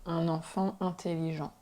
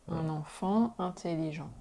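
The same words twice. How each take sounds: The two takes are said the same way.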